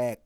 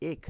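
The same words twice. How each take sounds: First: "এক" said as æk, with an open æ; open æ sound. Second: "এক" said as ek, with a close e; close e sound. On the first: Teacher showing pupils how it is really said, open æ. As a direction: open the vowel of "এক" to æk. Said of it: "নাকি এক উচ্চারণ করি?". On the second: Teacher sounding out the spelling for pupils, close e. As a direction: read "এক" as spelt, ek not æk. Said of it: "আমরা কি বলি?". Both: Shown as a demonstration.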